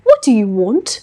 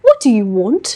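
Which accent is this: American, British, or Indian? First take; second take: British; British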